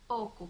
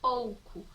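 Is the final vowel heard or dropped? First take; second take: dropped; heard. First: The final u vowel is left out. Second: The final u vowel is clearly pronounced.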